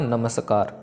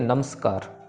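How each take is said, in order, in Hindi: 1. m पूरी तरह घोष के साथ अपने अलग अक्षर के रूप में बोला जाता है। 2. m सीधे s में चला जाता है, छोटा और कटा हुआ। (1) "सही तरीके से प्रोनाउंस करें तो होगा नमस्कार" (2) "गलत वर्जन ... म स को वो जोड़ देते हैं नम्स"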